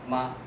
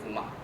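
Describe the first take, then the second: First: The pitch stays high and flat. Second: The pitch dips down, then rises. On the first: It means mother. "with a high level picture pattern" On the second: It means horse. "first falling, then rising, a deepening tone"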